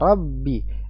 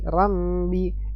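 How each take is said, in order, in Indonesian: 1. Huruf b yang dobel ditahan tanpa dengung sengau. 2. Huruf b yang dobel membawa dengung sengau seperti m. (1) "jangan sampai keluar dengung" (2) "bukan rabbi rambi ya"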